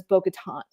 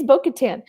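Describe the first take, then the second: First: Bo-Katan ending in a long open "tahn"; Bo-Katan with a broad "ah" in the final syllable; old mispronunciation of the name. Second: Bo-Katan ending in a flat "tan", rhyming with "can"; Bo-Katan, last syllable like "tan"; proper pronunciation of the name. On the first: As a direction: say Bo-Katan with the last syllable rhyming with "on". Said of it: "cannot get past the name". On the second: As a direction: say Bo-Katan with the short "a" of "man" at the end. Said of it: "proper pronunciation of names". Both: Shown as a demonstration.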